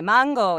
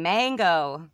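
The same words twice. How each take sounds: First: It is said with a Latin American accent. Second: It is said with an American accent.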